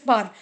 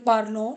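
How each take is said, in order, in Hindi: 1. 'parl' के बाद का अंत मौन है। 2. 'parl' के बाद का अंत एक स्वर के रूप में उच्चारित होता है। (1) "No, it is par. E N T is the silent" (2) "Some of the students pronounce this as well"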